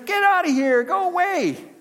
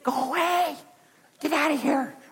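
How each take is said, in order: First: It is said at normal loudness. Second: It is said quietly, almost hushed.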